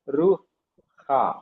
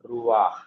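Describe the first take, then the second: First: The a vowel comes after the h sound. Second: The a vowel comes before the h sound. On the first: The speaker calls it wrong. "you should not pronounce it as Ruha" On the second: The speaker calls it right. "It is Ruah"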